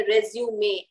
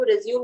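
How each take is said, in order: First: "रिज्यूमे" with a clearly sounded final ए; correct pronunciation. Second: "रिज्यूम" stopping on the m, no final vowel; mistaken pronunciation. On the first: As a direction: say "रिज्यूमे" ending in "-may". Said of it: "रिज्यूमे बोलते हैं उसको". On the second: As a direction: say "रिज्यूम" like the English verb resume. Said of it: "रिज्यूम नहीं बोलते हैं". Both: Shown as a demonstration.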